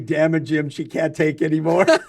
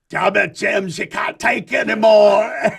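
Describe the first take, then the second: First: It is said in a plain American accent. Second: It is said in a Scottish accent.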